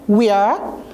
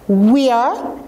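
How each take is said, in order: Both takes have the same delivery.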